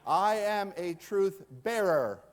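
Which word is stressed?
bearer. The stress is on "bearer".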